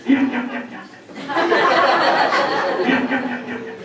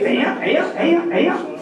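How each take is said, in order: First: Gasped ayuh on the in-breath; said while inhaling. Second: Said in the usual way. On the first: Shown as a demonstration. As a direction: suck in air as you say each short yeah. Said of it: "do it when they're inhaling". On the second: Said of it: "when you're exhaling".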